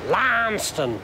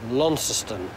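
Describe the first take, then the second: First: The name is said the Cornish way. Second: The name is said the local Tasmanian way. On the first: This names the town in Cornwall. "we pronounce the Cornish one Launceston" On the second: This names the Tasmanian town. "I will keep trying"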